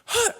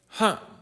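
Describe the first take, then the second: First: It is said in a wild, crazy way. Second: It is said in a soft, dreamy way.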